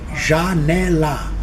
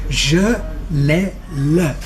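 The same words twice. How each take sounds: First: Every a vowel is said fully open. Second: Some a vowels are said closed and reduced. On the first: This is how it would sound if the letter had one sound. The speaker calls it wrong. "o A só se lê A. Se isto fosse verdade, a palavra seria janela" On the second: This is how the word is normally said. The speaker calls it right. "A maior parte das vezes que a gente usa a letra A, lê-se A"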